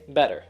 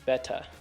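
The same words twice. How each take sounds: First: It is said in an American accent. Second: It is said in a British accent. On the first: "In America, we might go and say better" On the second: "which most British people do"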